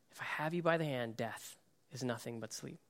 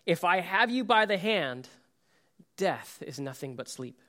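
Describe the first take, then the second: First: Softer, quicker, near a hush; soft repeat. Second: Said in the usual way. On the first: Acted. Jesus speaking over the dead girl, hushed and tender. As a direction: repeat the promise gently, almost to yourself.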